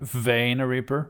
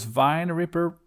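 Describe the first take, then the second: First: The first word is said like 'vain'. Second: The first word is said like 'vine'. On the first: "Is my pronunciation right this time?" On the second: "wasn't really that good"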